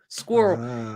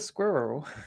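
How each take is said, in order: First: The word is squeezed into one syllable. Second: The word is said with two clear syllables. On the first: "they say it like S Q U I R L" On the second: "I'm glad I said squirrel right then"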